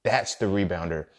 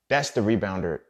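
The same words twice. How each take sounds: The two takes are said the same way.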